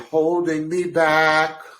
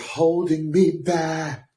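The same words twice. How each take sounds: First: The phrase is said in a flat, plain tune. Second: The phrase is said with a rising-falling tune. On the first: "she didn't just say holding me back" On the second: "almost like a rise and fall"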